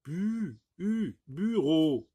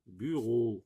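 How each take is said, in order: First: "bu", then "u" alone, then "bureau", slow and high; isolated u sound. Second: Said in the usual way. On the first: Shown as a demonstration. Teacher contrasting u with i, slow raised "bureau". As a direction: stretch the u before giving "bureau". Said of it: "je n'ai pas dit bi". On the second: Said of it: "on n'entend pas".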